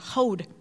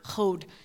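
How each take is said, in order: First: The word begins with a soft breathy h sound. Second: The word begins with a harsh throaty ch sound. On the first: The speaker calls it right. "Because it's hey" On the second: The speaker calls it wrong. "not chod"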